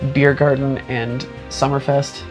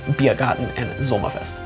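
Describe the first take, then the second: First: The words are pronounced with English sounds. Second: The words are pronounced with German sounds. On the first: "Instead of" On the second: "I pronounce it the German way"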